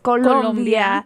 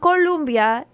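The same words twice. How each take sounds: First: The name is said with Spanish-style vowels. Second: The name is said with English-style vowels. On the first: The speaker calls it right. "it's Colombia" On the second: The speaker calls it wrong. "it's not Colombia"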